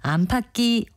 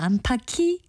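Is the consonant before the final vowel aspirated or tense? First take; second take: tense; aspirated. First: The middle consonant is a tense kk sound. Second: The middle consonant is an aspirated k sound. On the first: The speaker calls it right. "연음을 해서 쌍기역으로 발음합니다" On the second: The speaker calls it wrong. "거센 소리로 발음하는 분들은 의외로 많습니다"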